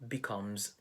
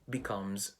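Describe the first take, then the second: Both takes have the same delivery.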